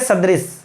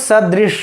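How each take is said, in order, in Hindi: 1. s और sh ध्वनियाँ एक साथ मिला दी जाती हैं। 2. s और sh ध्वनियाँ अलग रखी जाती हैं। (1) "किस लोग कह देंगे सदृश। तो स और श का मित्रों हम लोग उच्चारण ही ठीक से नहीं कर पाते हैं" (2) "सदृश कैसे बोलेंगे मित्र इसको"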